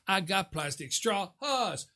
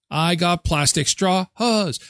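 First: Slow and much softer, almost under the breath; quiet slow brag; hushed gloat. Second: Slow, drawn-out boast; singsong brag; slow gloating taunt. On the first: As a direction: murmur the boast. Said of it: "repeated taunt". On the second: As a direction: gloat over the straws slowly. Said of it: "repeated taunt, second take softer". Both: Pretend.

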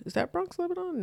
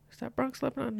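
First: Pitched up high, "Bronx" rising then "Lebanon" falling; a high, pressing repeat of the question; higher questioning. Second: Said in the usual way. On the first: Real, not acted. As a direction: ask it again much higher, checking with the listener.

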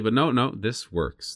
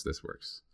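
First: Said in the usual way. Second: Whispered to himself. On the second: Retold or imitated. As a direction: breathe it almost silently. Repeats quote, drops to whisper.

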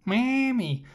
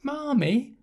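First: Marmee said the British way, "MAM-mee" with no r, falling firmly; British Mammy. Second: Marmee said with an American r, "MAR-mee", rising like a question; mock American Marmee. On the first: Retold or imitated. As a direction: say Marmee plainly as "Mammy", flat falling and final. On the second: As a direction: sneer out an American-sounding Marmee with a rising, quizzical tune. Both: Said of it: "They're not from Boston".

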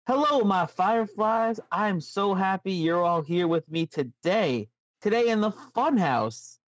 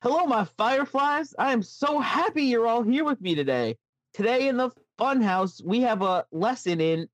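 First: Slow, slightly Southern storyteller voice; a light Southern drawl for the Funhouse host, slow; weirdly Southern Bray. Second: Put-on much higher, sing-song children's host voice; sweet, high kids' TV host welcome; Firefly Funhouse host. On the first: Acted. Host greeting his Fireflies in a light Southern drawl. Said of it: "you went a little, like, weirdly Southern". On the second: Host sweetly greeting his Fireflies in a high voice. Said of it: "Let me take that again".

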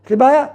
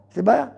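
First: High, loud cry of a problem; loud complaint. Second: Said in the usual way. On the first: Pretend. Acting a troubled student, loud high complaint. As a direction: blurt out the problem loudly. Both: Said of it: "אז מה עושים?".

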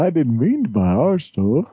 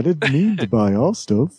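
First: Put-on Liverpool accent, pitched up; a hint of [name]'s Scouse; [name] impression. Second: Goofy high cartoon dog voice; a dopey cartoon dog, pitched up. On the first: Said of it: "instead of [name]". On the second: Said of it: "I sounded like a cartoon dog instead of [name]".

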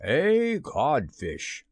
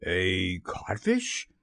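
First: Very slow, loftily falling insult; mocking, stretched-out verdict; taunting reply. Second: Low, slow, rising question; stunned, drawn-out query; blank echo. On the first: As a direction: draw the insult out with relish. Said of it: "replied the voice". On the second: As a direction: repeat it dully in disbelief. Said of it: "Hook echoed blankly". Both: A narrator's reading.

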